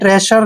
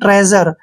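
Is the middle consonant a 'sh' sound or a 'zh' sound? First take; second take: sh; zh. First: The middle consonant is a voiceless 'sh' sound. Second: The middle consonant is a voiced 'zh' sound. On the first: The speaker calls it wrong. "आपने ट्रेशर नहीं पढ़ना है" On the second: The speaker calls it right.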